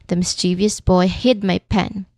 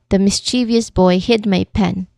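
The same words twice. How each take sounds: No difference in how they are said.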